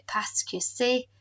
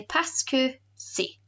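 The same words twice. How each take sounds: First: Parce que c'est said slowly, each syllable clear, rising on c'est; teacher dictating parce que c'est slowly; slow careful French. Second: Parce que c'est said in French, stress on que, falling at the end; teacher saying parce que c'est in French; French pronunciation. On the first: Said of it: "don't forget to write the subtitle here". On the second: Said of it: "we say". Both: Shown as a demonstration.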